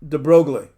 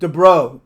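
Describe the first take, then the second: First: The g and l sounds are spoken. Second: The g and final letters are silent. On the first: The speaker calls it wrong. "this is not the real way you pronounce the guy's name" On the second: The speaker calls it right. "which is way closer than de Broglie"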